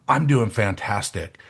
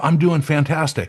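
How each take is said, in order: First: Said in the usual way. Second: Higher-pitched, upbeat quote; upbeat suggested answer. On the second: Acted. Coach urging people to change their answer, upbeat. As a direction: lift it up, urging the better answer.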